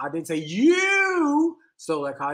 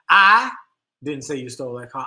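First: The stress is on "you". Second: The stress is on "I".

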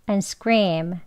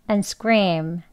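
No difference in how they are said.

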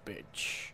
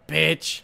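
First: The word is said quietly and flatly. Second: The word is yelled loudly.

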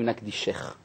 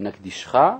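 First: The ending is pronounced in the feminine form. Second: The ending is pronounced in the masculine form. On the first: It addresses a female. "נקבה אומרים נקדישך" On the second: It addresses a male. "זכר אומרים נקדישך"

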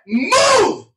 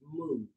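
First: It is said very powerfully and loudly. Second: It is said gently and politely.

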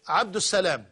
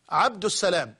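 First: The name is said with the article before salam. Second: The name is said with the article before salam.

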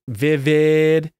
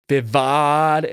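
First: The second vowel is an 'eh' sound. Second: The second vowel is an 'ah' sound.

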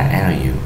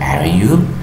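First: The pitch falls at the end of the tag. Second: The pitch rises at the end of the tag. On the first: The speaker only wants confirmation. "la entonación fue hacia abajo" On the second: The speaker really wants an answer. "si la entonación en las question tags la hacemos hacia arriba"

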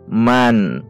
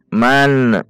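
First: The final n ends clean without any bounce. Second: The final n ends with an echoing bounce. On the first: The speaker calls it right. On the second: The speaker calls it wrong. "itu ada pantulan. Tidak boleh dan harus dihindari"

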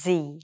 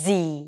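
First: The letter ends in a long 'ee' sound, like zee. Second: The same.

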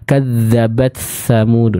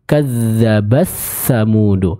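First: The t sound is faint and half-swallowed. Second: The t sound merges fully into the next sound. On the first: It sounds close to the merging rule. "kita baca dengan samar ... kurang tepat ya" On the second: This follows another recognized reading tradition. "beberapa riwayat lain yang membacanya dengan idgham"

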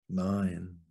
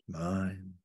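No difference in how they are said.

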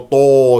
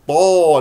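First: The vowel is said with rounded lips. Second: The vowel is open, with unrounded lips. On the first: The speaker calls it wrong. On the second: The speaker calls it right.

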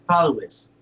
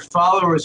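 First: The ending is said like 'is' without r. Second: The ending is said with an r sound.

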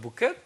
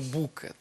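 First: The stress is on the second syllable. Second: The stress is on the first syllable. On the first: The speaker calls it wrong. "хочеться зробити наголос на другий склад" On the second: The speaker calls it right. "але ж правильно"

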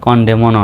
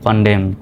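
First: The final n sound is pronounced. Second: The final n sound is silent. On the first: The speaker calls it wrong. "কনডেমনও নয়" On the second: The speaker calls it right. "সঠিক উচ্চারণটা হবে সলেম ড্যাম কনডেম"

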